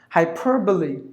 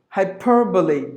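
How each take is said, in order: Both takes have the same delivery.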